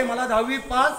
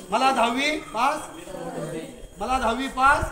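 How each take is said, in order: First: Said in the usual way. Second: Spaced-out prompt for a group response; voiced-up plea. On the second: Shown as a demonstration. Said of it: "आवाज कर, आवाज नाही यायचा".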